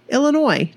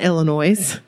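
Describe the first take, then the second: First: The final s is silent. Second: The final s is pronounced. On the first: The speaker calls it right. "Oh, sorry. Illinois" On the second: The speaker calls it wrong. "not Illinois"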